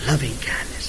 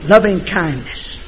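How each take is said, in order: First: Hushed echo. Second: Tender phrase. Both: Shown as a demonstration.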